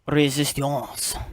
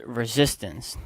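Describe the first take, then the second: First: It is said with a French accent. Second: It is said with an English accent.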